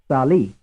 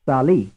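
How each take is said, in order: First: The stress is on the second syllable. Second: The same.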